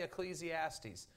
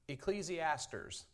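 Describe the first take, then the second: First: The word ends without an R sound. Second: The word ends with an added R sound. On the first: The speaker calls it right. "But he couldn't say Ecclesiastes" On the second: The speaker calls it wrong. "he pronounced it Ecclesiasters. There's not an R to be found in that book"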